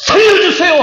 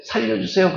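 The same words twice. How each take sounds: First: High, loud cry for help; desperate shout. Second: Soft, casual ask for help, no urgency; calm plea. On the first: Pastor shouting as a drowning man to congregation, desperate cry. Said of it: "고함을 치는 거예요". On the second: Pastor mocking a drowning man's calm request, soft and casual. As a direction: say it politely, as if not drowning. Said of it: "그런 사람이 어디 있어요?". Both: Shown as a demonstration.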